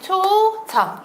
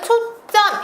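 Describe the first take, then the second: First: The second syllable starts with a plain consonant. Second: The second syllable starts with a tense consonant. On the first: "표기를 할 땐 초점 이렇게" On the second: "발음은 초 점 이렇게 된소리가 나지만요"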